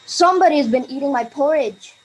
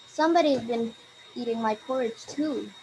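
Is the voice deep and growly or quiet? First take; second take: growly; quiet. First: It is said in a big growly voice. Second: It is said in a quiet voice.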